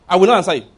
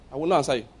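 First: Louder, firm "I will not answer you"; loud refusal. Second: Said in the usual way. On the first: Real, not acted. Preacher defying a greedy pastor, loud and firm. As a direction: slam the door on it. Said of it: "defiant refusal". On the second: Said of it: "quieter repeat".

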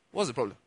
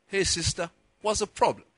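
First: Said in the usual way. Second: Put-on a light American accent on a friendly question. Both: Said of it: "I'm adding the accent to it now".

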